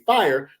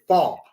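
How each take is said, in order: First: It is said in the speaker's plain pronunciation. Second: It is said in a strong country Southern accent.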